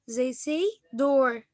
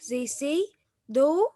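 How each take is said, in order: First: It is said in an American accent. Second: It is said in a British accent.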